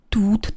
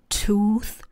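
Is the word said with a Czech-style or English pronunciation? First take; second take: Czech-style; English. First: It is said with a Czech-style pronunciation. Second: It is said with an English pronunciation. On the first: The speaker calls it wrong. "Zapomeňte na počištěnou výslovnost Bluetooth. Žádný tooth to není" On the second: The speaker calls it right. "ale je to tooth"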